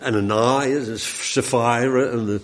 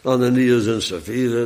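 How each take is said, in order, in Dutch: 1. De namen worden uitgesproken met een Amerikaans-Engels accent. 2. De namen worden uitgesproken met een gewoon Nederlands accent.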